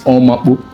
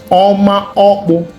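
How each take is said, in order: First: The two words are run together into one. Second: The two words are kept apart as two. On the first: The speaker calls it wrong. "Sometimes they mispronounce it and say it's" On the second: The speaker calls it right. "No, it's"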